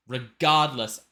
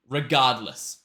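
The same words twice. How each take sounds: The two takes are said the same way.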